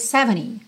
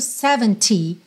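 First: It has an American accent, with a faint T. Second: It has a British accent, with a crisp T.

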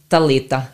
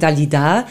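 First: The name is said the Viennese way. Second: The name is said the French way.

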